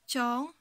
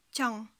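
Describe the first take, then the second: First: KYANG held long, tune lifting at the end; long vowel. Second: KYANG short, tune falling; shortened syllable. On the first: (« kyang » avec voyelle longue) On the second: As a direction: cut the vowel of "kyang" short. (« kyang » raccourci, ton descendant) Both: Shown as a demonstration. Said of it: "Vous voyez la différence?".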